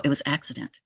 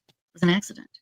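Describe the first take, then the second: First: Said in the usual way. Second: "an" said alone and clearly, rising; correcting himself by hitting "an"; slight rise landing on "an"; stress on an. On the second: Shown as a demonstration.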